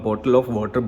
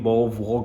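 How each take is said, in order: First: Said plainly, with every consonant clearly pronounced. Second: Said in a British accent, with dropped consonants. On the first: The speaker calls it right. "नॉर्मल बॉटल ऑफ वाटर" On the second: The speaker calls it wrong. "बो वो करके बोलते हैं"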